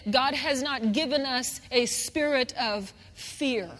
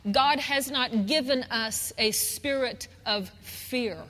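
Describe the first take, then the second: No difference in how they are said.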